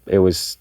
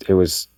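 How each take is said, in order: Both takes have the same delivery.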